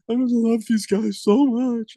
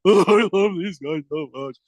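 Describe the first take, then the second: First: Higher, slow, mock-teary voice; mock tearful coach. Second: Slow, lightly mocking sob-talk; a hint of a weepy cowardly lion. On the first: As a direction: imitate a coach choking up, slowly. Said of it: "he starts crying". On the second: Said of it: "like the cowardly lion".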